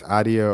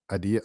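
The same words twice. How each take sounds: First: Adia stressed on the first syllable; first pronunciation option. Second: Adia said the other way, stress moved off the first syllable; alternative pronunciation. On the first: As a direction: say Adia with the weight up front. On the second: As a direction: say Adia with the weight later, as an unsure alternative. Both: Shown as a demonstration. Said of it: "I don't know how to pronounce it".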